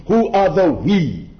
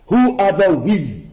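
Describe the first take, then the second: No difference in how they are said.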